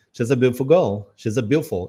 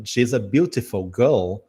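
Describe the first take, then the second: First: British "beautiful" shortened to "be'ful"; British clipped "beautiful girl"; imitated British accent. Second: Slow "beautiful" with all three syllables; "beautiful" with T and I sounded; full careful pronunciation. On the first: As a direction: swallow the T and I, British style. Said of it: "essa comida no T e no I". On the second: Retold or imitated. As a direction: spell out "beautiful girl" clearly. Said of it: "Ele não falou beautiful".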